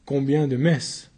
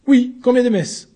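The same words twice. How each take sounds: First: Said in the usual way. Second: High, loud pressing repeat; insistent demand. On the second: Acted. Accused pressing the newcomer for an answer, loud high. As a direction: hammer the question home.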